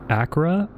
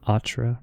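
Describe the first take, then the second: First: The middle consonant is a K sound. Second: The middle consonant is not a K sound. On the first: "If it's a C H, usually it's a K sound" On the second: "maybe it's Path of Atra?"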